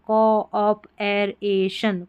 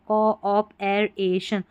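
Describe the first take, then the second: No difference in how they are said.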